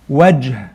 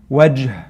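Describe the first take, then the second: The two takes are said the same way.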